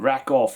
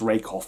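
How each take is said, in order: First: The first vowel is short, like 'rack'. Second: The first vowel is long, like 'rake'. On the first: "it's like rack off" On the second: "I think it's pronounced rake off"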